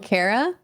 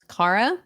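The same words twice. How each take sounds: First: The first syllable does not sound like 'car'. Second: The first syllable sounds like 'car'. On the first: The speaker calls it wrong. "my whole life I've been called Kara" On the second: The speaker calls it right. "when it's pronounced Kara"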